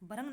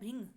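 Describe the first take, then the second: First: The r is followed by an 'a' vowel. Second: The r is followed by an 'i' vowel. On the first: The speaker calls it wrong. "भ्रंग नहीं होता friends" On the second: The speaker calls it right. "क्या होता है"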